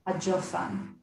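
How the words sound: It has a j sound and an oh vowel. This is the Yemenite pronunciation. "It would be pronounced hajofan"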